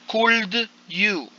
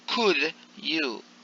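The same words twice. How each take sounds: First: The L in could is pronounced. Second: The L in could is silent. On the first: The speaker calls it wrong. "you don't say could you" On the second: The speaker calls it right. "the pronunciation is without the L"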